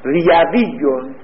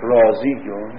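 First: ریویون said slowly by the rule, as ray-vee-yoon; regular form. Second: رازیون said with a long raa and z, as raa-zee-yoon; actual usage. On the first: Teacher showing students the regular form, slowly. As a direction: spell out ریویون syllable by syllable. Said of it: "باید بگن چی؟". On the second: Teacher giving students the form actually used, plainly. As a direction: give the irregular رازیون, lower and settled. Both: Shown as a demonstration.

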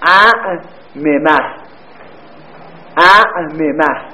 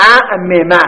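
First: اعممه drawn out slowly, every syllable separate, both mims clear; slow spelled-out form. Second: Said in the usual way. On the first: Shown as a demonstration. Teacher slowly spelling اعممه for students, drawn out. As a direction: stretch اعممه out so each mim is heard. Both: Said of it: "حالا اگر شما اعممه رو بخواید".

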